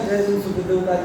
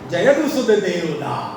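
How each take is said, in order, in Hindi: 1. इसे सपाट ढंग से कहा गया है, बिना किसी आनंद के। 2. इसे आनंद से, खुशी के साथ कहा गया है। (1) "ऐसे नहीं निकला ... जैसे आप लोग करते" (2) "तब उनके आनंद से निकला ... ऐसे निकला"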